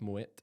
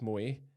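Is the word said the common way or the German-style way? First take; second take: German-style; common. First: It is said the German-style way. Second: It is said the commonly assumed way. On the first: This is the correct pronunciation. The speaker calls it right. "but actually it's German. It's Moet" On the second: This is how most people say it. The speaker calls it wrong. "Everyone thinks it's Moet"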